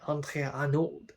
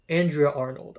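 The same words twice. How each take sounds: First: The name is said with a French accent. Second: The name is said with an English accent.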